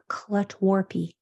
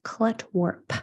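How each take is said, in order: First: A vowel sound follows the final p. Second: It ends on a voiceless popping p. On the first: The speaker calls it wrong. "make sure it's not clut warpy" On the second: The speaker calls it right. "It's just clut warp with that p"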